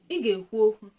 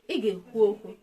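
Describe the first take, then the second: First: It is said with a level mid tone. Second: It is said with a level mid tone.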